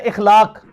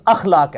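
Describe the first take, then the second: First: "اخلاق" said ikhlaq, opening on i; emphatic initial i in "اخلاق"; common mispronunciation. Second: "اخلاق" said akhlaq, opening on a; corrected vowel. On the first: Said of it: "ہم لفظ بول رہے ہوتے ہیں". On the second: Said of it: "یہ لفظ اخلاق ہے". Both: Shown as a demonstration.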